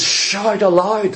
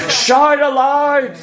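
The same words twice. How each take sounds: First: Said in the usual way. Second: Proclaimed. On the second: Shown as a demonstration. Preacher quoting the Psalms to the church, slow proclaiming call. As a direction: Shout aloud proclaimed high and slow. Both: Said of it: "It says".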